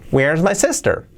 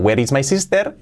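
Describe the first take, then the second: First: "Where's my sester", linked, falling at the end; correct pronunciation. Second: "Where is my sister" word by word with Spanish "ee" in "is" and "sister"; school-taught pronunciation. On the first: Teacher shows how it should be, linked "Where is my sister". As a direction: run "where is" together, "sister" with E sound. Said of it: "Así sería". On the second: Teacher mimics what school taught, Spanish-sounding "Where is my sister". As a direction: say "sister" as "seester", rising at the end. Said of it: "Siempre nos enseñaron". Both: Shown as a demonstration.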